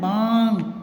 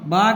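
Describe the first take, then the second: First: The vowel is nasal. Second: The vowel is plain. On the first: The speaker calls it right. "ये चांद बिंदु है तो बांग" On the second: The speaker calls it wrong. "बाग नहीं बोलेंगे"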